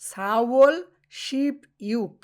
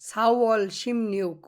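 First: The number is said with a p, 'ship yuk'. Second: The number is said with m and n, 'shim nyuk'. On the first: The speaker calls it wrong. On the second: The speaker calls it right.

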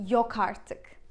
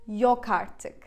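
The two takes are said the same way.

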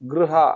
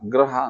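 First: A u vowel follows the gr sound. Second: An a vowel follows the gr sound. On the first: The speaker calls it right. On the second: The speaker calls it wrong.

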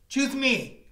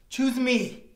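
The two takes are said the same way.

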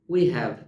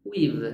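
First: It is said as two separate full words. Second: It is said as one contracted word.

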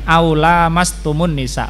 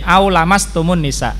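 First: The vowel after the L is long. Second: The vowel after the L is short. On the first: It means having intercourse with women. "kita bacanya panjang pada lanya" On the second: It means touching women. "yaitu dibaca pendek"

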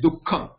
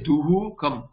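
First: The visarga is cut to half before the k. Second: The visarga is sounded fully as a 'hu' syllable. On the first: The speaker calls it right. "it is dukkham... it is cut down into half" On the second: The speaker calls it wrong. "you don't say duhu kam. The duhu kam is not the pronunciation"

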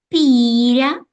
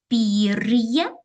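First: The r is soft with no separate y sound. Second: The r is hard, followed by a y sound. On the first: The speaker calls it wrong. "щось наші слова звучать неправильно" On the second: The speaker calls it right. "треба приголосні вимовляти твердо"

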